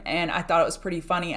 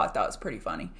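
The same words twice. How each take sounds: First: Said in the usual way. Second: Low muttered aside. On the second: Real, not acted. To her stream viewers about a Twitter DM, a low quiet aside. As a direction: repeat it much lower and softer, almost to herself.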